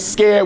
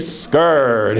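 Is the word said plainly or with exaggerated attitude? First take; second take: plainly; with attitude. First: The word is said in a plain, ordinary way. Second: The word is said with exaggerated, sassy attitude. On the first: "Instead of saying scared" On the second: "put some stank on it"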